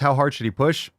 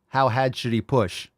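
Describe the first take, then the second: First: It is said in a plain accent, keeping the r. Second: It is said in a Boston accent, dropping the r.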